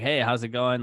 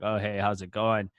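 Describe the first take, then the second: First: It is said with high, lively energy. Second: It is said with low, flat energy.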